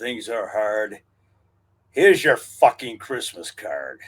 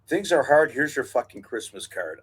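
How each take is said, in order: First: It is read forcefully, with extra energy. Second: It is read plainly, with little energy.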